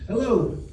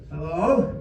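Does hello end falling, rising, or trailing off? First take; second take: falling; rising. First: The voice falls to a firm, final stop. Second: The voice rises tentatively like a question. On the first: It is a complete, finished greeting. "Hello, period. That's it" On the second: The caller is unsure who is on the line. "You're very tentative"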